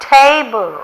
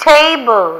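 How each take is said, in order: Both takes have the same delivery.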